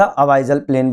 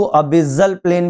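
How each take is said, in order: First: अबाइजल with "bai" as in "buy"; long "ai" pronunciation. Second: अबिजल with a short "bi" in the middle; short-i pronunciation. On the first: Teacher giving students his own version, अबाइजल with an "ai" glide. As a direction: say अबाइजल, "a-BAI-zal", not "a-BI-zal". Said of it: "मैं इसको हमेशा अबाइजल प्लेन बोलता हूँ". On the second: Teacher showing students how others say it, अबिजल with short i. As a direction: say अबिजल, "a-BI-zal", not "a-BAI-zal". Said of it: "कई लोग इसको अबिजल प्लेन भी बोलते हैं". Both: Shown as a demonstration.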